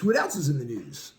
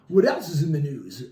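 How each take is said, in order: First: It is said in a normal speaking voice. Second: It is said in a put-on radio announcer voice.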